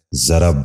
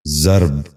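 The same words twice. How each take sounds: First: ضرب in two syllables, "za-rab"; wrong pronunciation. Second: ضرب in one syllable, "zarb"; correct pronunciation. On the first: Teacher showing viewers the mistake, wrong pronunciation. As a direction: say ضرب as zarab. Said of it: "یہ غلط تلفظ ہے". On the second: Teacher giving viewers the model, correct pronunciation. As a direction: say ضرب as zarb, no second vowel. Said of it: "درست تلفظ ہے". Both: Shown as a demonstration.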